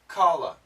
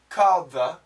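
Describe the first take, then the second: First: The words blend together into one reduced form. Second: Each word is said separately and fully.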